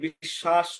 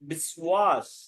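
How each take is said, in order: First: The word has no w sound after sh. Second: The word has a w sound after sh. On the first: This is the everyday Bengali way of saying it. "আমরা বলে থাকি বিশ্বাস করো" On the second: This is how it is said in Sanskrit. "সংস্কৃত যখন আপনি উচ্চারণ করবেন তখন বলতে হবে বিশ্বাস"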